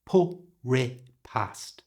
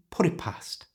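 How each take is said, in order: First: "put it past" slowly, with the t of "put" turned into an r; slow pronunciation. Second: "put it past" fast, breathy, squashed together; full speed. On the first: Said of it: "Slowly first". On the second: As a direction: rush "put it past" into one word. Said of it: "And now full speed". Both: Shown as a demonstration.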